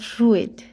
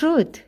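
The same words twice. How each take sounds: First: The 'ui' is not said as plain 'oo'. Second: The 'ui' is said as a plain 'oo' vowel. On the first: The speaker calls it wrong. "not fruit" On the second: The speaker calls it right. "it's fruit"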